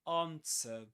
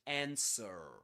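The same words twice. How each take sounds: First: It is said with a British accent. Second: It is said with an American accent. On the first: "British English" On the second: "American English"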